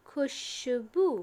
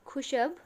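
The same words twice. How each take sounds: First: खुशबू slowly with a long final ऊ. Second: खुशब with no vowel at the end; without the matra. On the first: (खुशबू में अंतिम ऊ लंबा खींचकर) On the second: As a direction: stop short on खुशब. (खुशब, बिना मात्रा के) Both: Shown as a demonstration.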